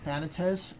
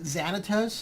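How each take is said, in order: First: The name begins with a th sound. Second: The name begins with a z sound. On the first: This is how the speaker says it. "I'm just pronouncing it Thanatos" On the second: Some other people say it this way. "some people pronounce it Xanatos"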